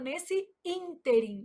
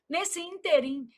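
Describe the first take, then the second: First: The stress falls on the first syllable of ínterim. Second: The stress falls on the last syllable of ínterim. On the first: The speaker calls it right. "a gente fala nesse ínterim" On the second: The speaker calls it wrong. "O povo vai lá e fala assim"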